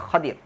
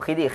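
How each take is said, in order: First: The first vowel is an open 'a' sound. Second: The first vowel is a short 'i' sound. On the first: This is the Arabic pronunciation used in the hadith. "sebutannya Khadir" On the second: This is how Malay speakers pronounce it. "kita orang Melayu sebut Khidir"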